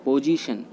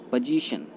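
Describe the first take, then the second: First: पोजीशन with full 'po'; पोजीशन with a rounded long o first; common mispronunciation. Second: पोजीशन with short 'puh'; पोजीशन, first vowel reduced to schwa; correct pronunciation. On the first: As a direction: say पोजीशन as 'POH-jee-shun'. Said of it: "पोजीशन नहीं होता". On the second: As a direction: say पोजीशन as 'puh-JEE-shun'. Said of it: "ये होता है". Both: Shown as a demonstration.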